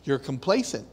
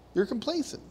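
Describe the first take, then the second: First: "You're complacent." low and falling, flatly stated; falling statement. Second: "You're complacent." high and rising, softer; rising question. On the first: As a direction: state "complacent" as a dropped verdict. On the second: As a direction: lift "complacent" up like a query. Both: Shown as a demonstration.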